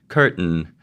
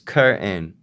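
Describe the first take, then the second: First: The t is released through the nose. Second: The t is replaced by a glottal stop. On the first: "something that's called a nasal plosion" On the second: "glottalize the nasal plosion"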